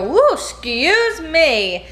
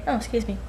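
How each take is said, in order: First: Drawn-out, high whooping excuse me; big showy excuse me. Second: Quiet, dainty excuse me; soft little excuse me. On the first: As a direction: make a grand show of the apology. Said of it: "if you let out a huge giant burp, you go". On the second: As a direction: murmur it politely, softly. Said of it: "If you let out a tiny burp". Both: Shown as a demonstration.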